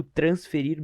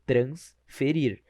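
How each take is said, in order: First: Said in the usual way. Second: Slow "transferir", trans - ferir; prefix set apart. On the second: Shown as a demonstration. Teacher showing trans stays whole, "transferir" slowly split trans-ferir. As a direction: say "transferir" with a pause after an intact trans. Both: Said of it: "não deixando o trans se separar".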